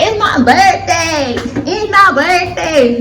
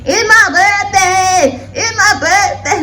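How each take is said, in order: First: Put-on high, drawn-out sassy girl voice; mock the birthday girl, slow and high; ratchet voice. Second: Even higher, slower ratchet squeal. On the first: Vlogger mocking a ratchet birthday girl, high and drawn out. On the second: Retold or imitated. Vlogger exaggerating the ratchet birthday voice, higher still. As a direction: stretch every word out, sassy and loud. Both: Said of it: "that ratchet voice".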